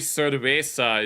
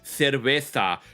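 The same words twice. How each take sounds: First: The z is said as an s sound. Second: The z is said as a th sound. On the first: This is not how people in Spain say it. "you don't say cerveza in Spain" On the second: This is how people in Spain say it. "You say cerveza"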